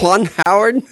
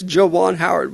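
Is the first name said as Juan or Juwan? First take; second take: Juan; Juwan. First: The first name is said as Juan. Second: The first name is said as Juwan. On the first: The speaker calls it wrong. "But you keep saying Juan" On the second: The speaker calls it right. "it's Juwan Howard"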